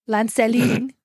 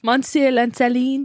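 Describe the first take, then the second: First: Lanceline with a careful French try; French name attempt. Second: Monsieur Lanceline said again, more French; French name retry. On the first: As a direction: sound it out as French. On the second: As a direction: give the French a second go. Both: Shown as a demonstration. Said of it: "One more time".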